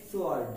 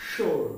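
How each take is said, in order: First: সোয়ার্ড said with the w sounded, s-ward; সোয়ার্ড pronouncing the w; wrong way. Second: শোর্ড said sord with a silent w; শোর্ড, no w sound at all; correct way. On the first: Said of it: "আমরা এটাকে বলে থাকি". (ভুল উচ্চারণে সোয়ার্ড) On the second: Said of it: "কিন্তু এর উচ্চারণ হবে". (সঠিক উচ্চারণে শোর্ড) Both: Shown as a demonstration.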